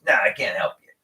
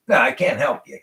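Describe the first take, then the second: First: Said in the usual way. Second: A touch of curt refusal, "No" snapped a little louder; curt dismissal. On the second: Retold or imitated. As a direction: imitate the old man brushing him off. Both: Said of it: "like, dismissing me".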